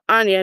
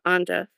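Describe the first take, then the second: First: The middle consonant is a Y sound. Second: The middle consonant is a J sound. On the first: The speaker calls it right. "I think the J might be pronounced as a Y. So Anya" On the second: The speaker calls it wrong. "not Anja"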